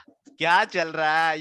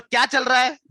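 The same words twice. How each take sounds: First: Slow, drawn-out suspicion; suspicious. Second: Loud, raised angry demand; demonstrated anger. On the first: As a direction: stretch it out as if suspecting something. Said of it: "ये suspect वाला". (शक भरे अंदाज़ में, खींचकर) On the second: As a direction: act out an angry challenge. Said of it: "ये हो गया गुस्सा वाला". (गुस्से वाली ऊँची आवाज़ में) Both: Shown as a demonstration.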